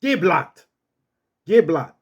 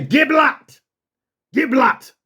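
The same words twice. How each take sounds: First: Firm command at normal pitch; controlled authoritative dog command; with authority. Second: High, forceful order to speak; raised, firm German dog command; authoritative command. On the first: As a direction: order the dog with steady authority. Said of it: "Say it with authority". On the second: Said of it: "Say it like that. Say it with authority". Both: Shown as a demonstration.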